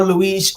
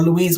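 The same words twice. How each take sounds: First: "Louise" ending in a z sound; buzzed z closing "Louise"; alternative pronunciation. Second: "Louise" ending in a sh sound; alternative pronunciation. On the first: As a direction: say "Louise" as loo-EEZ. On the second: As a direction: say "Louise" as loo-EESH. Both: Shown as a demonstration. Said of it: "whatever you pronounce it".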